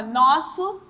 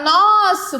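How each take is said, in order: First: Said in the usual way. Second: "nosso" with a long, emphatic nos-; stretched stressed syllable. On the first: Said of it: "tirar a palavra nosso". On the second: Shown as a demonstration. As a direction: hold the first syllable of "nosso". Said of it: "É aquela que eu passo mais tempo pronunciando".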